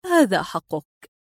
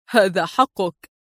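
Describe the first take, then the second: First: Slow, subdued concession; resigned surrender. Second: Chuckle, then slow amused concession; laughing reply. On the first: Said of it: "تقول في استسلام عجيب". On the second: Adib teasing her with her own words, laughing. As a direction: laugh and grant it slowly. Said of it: "ضحك قائلا". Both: A narrator's reading.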